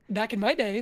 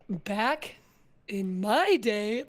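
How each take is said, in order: First: Said in the usual way. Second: "Back", pause, then "in my day" drawn out; slow dramatic pacing. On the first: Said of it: "but the pacing gives you different strengths". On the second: Shown as a demonstration. Player showing co-host how pacing adds sass, slow and weighty. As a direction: break after "Back" and stretch "MY day" for power. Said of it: "the pacing gives different power behind the phrase".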